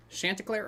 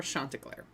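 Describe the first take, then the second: First: "Chanticleer" opening like "shanty"; short "a" pronunciation. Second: "Chanticleer" with an open ah in the first syllable; broad "ah" pronunciation. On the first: Weighing which name to use, short "a" pronunciation. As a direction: say "Chanticleer" as SHAN-tuh-clair. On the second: Weighing the alternative name, broad "ah" pronunciation. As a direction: say "Chanticleer" as SHAHN-tuh-clair. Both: Shown as a demonstration. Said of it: "I'm gonna say Chanticleer".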